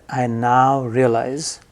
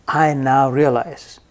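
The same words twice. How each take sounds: The two takes are said the same way.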